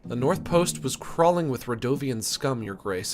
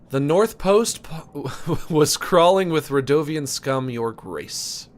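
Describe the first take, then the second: First: It is read at a quicker, tenser pace. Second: It is read at a slower, calmer pace. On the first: The speaker calls it wrong. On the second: The speaker calls it right.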